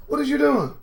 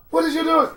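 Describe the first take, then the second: First: High, disbelieving call to a reckless friend; asking what on earth she's doing; incredulous friend. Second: Even higher, more urgent repeat; insist, pushing the question harder; incredulous friend. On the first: Friend pleading with Ashley, high and incredulous. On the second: Friend pleading with Ashley, higher and more urgent. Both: Pretend.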